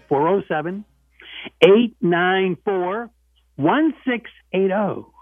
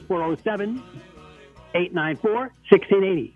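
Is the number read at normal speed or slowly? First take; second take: slowly; normal. First: The number is read slowly. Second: The number is read at normal speed.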